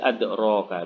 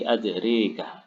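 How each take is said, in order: First: The vowel after 'dr' is a plain open 'a'. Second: The vowel after 'dr' leans toward an 'e' sound. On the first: "cara membacanya bil fathi, berarti adroka biasa" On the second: "Kalau imalah berarti adrika"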